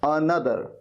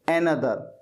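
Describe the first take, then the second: First: The first syllable sounds like 'un'. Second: The first syllable sounds like 'en'. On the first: The speaker calls it right. "एनदर नहीं अनदर" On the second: The speaker calls it wrong. "इसे गलत तरीके से pronounce किया"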